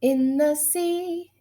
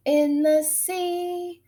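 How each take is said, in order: Both takes have the same delivery.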